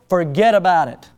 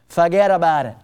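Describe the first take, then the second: First: It is said in the speaker's ordinary accent. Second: It is said in a put-on Bronx accent.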